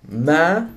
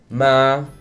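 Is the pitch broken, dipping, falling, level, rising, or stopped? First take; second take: rising; level. First: The pitch rises from mid height. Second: The pitch stays level at mid height. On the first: It means mother. "Tone number three is a mid-rising tone" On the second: It means ghost. "The first tone is a mid-tone, or also called the neutral tone"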